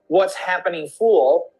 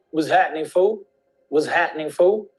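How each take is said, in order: First: "happening" in full with its P, "fool" with a clear L; fully pronounced. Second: "fool" said as "foo", with no L at the end; "happening" cut to "hat'nin", then "fool" rising without its L; dropped L. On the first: Teacher showing what they don't say, every sound pronounced. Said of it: "So they don't say". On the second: Teacher showing how they say it, slangy with dropped L. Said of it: "the L is not really pronounced". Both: Shown as a demonstration.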